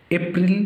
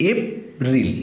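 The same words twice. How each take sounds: First: Said in the usual way. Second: "April" broken in two, ep, then ril; syllable by syllable. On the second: Shown as a demonstration. Teacher dividing April for pupils, "April" syllable by syllable. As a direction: put a clear pause inside "April" between ep and ril. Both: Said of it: "syllable ভাগ করে দিচ্ছি".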